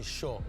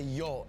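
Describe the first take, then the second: First: It begins with an 'sh' sound. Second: It begins with a 'y' sound. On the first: This is how the locals say it. "they say sure" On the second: This is how other Spanish speakers say it. "they don't say yo"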